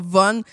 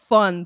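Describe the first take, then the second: First: The word begins with a v sound. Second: The word begins with an f sound. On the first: The speaker calls it wrong. "pas Von" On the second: The speaker calls it right. "ça se dit Fun"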